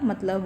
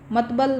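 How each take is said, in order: First: The l sound comes before the b sound. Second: The b sound comes before the l sound. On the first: The speaker calls it right. "मतलब होता है" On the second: The speaker calls it wrong. "मतबल नहीं होता भाई"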